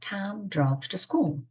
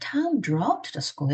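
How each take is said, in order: First: The word school carries the main stress. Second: The word drove carries the main stress. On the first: The destination was the school. "학교를 강조하고 싶어요" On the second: He went by car rather than walking. "걸어가지 않고 운전해서 갔어"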